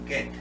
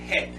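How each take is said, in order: First: It begins with a hard g sound. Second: It begins with a breathy, h-like throat sound. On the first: The speaker calls it right. "como que si hubiese una G U y es get" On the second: The speaker calls it wrong. "en español diríamos que aquí dice head, pero realmente no es head"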